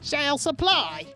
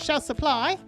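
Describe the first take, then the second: First: It is said in a put-on cowboy voice. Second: It is said in a normal speaking voice.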